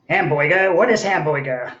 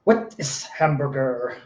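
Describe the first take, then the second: First: Put-on HAMBURGER said "HAM-boy-guh", r's dropped; Brooklyn-style "hamboyga" for hamburger. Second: "What is hamburger?" slowly, every word set apart; slow, careful question. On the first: Poet echoing the question, hamburger mangled to "hamboyga". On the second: Acted. Poet posing the poem's question, slow and deliberate. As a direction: ask it slowly with HAMBURGER fully pronounced.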